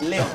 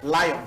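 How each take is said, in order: First: The name sounds like 'Leon', two clear syllables. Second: The name sounds like the animal 'lion'. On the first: This is how the name is said where it came from. "If he pronounces it as Leon" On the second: The bearer wants to be seen as a lion. "If he pronounces it as Lion"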